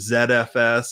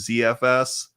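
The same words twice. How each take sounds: First: The first letter is pronounced 'zed'. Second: The first letter is pronounced 'zee'.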